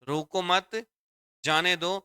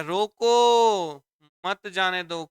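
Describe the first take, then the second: First: "रोको मत" together, a clear break, then "जाने दो"; pause after मत. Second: Long, loud, high "रोको", pause, then "मत जाने दो"; pause after रोको. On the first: Teacher showing the meaning of letting someone go, pause after मत. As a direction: keep मत attached to रोको, pause before जाने दो. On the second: Teacher showing the comma changing meaning to stopping someone, pause after रोको. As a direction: call out a stretched रोको, then join मत to जाने दो. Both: Shown as a demonstration. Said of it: "कौमे से देखो यहाँ भाव change हो गया".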